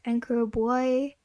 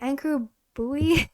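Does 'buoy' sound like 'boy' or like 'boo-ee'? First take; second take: boy; boo-ee. First: The last word sounds like one syllable, boy. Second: The last word sounds like two syllables, boo-ee. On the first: The speaker calls it wrong. "I pronounced it as like boy" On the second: The speaker calls it right. "it's supposed to be buoy"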